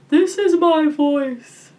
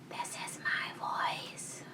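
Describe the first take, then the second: First: The voice is round and open, like a yawn. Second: The voice is whispered without full tone. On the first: "making the sound really round, like you're trying to induce a yawn" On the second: "Let's try whispering it"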